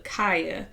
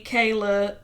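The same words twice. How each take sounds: First: "Kaya" said KY-uh, no L, falling; "Kaya" as KY-uh, settled and final; corrected name. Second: "Kayla" said KAY-luh, with an L; the mistaken name "Kayla", KAY-luh; wrong name. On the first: Host correcting herself on a cast member's name, "Kaya" said KY-uh. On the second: Host correcting herself on a cast member's name, "Kayla" said KAY-luh. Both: Shown as a demonstration. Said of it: "not Kayla".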